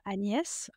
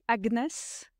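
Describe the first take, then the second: First: The gn is pronounced as one 'ny' sound. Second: The g and n are pronounced separately. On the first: This is how the name is said in French. The speaker calls it right. "et pas Agnès" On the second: This is how people in England say it. The speaker calls it wrong. "en Angleterre, on dit Agnès"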